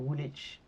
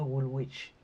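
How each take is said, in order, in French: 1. Le nom est dit à la façon locale, native. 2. Le nom est dit à la façon d'origine du locuteur, non locale. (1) "c'est Woolwich" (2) "on ne le prononce pas Woolwich"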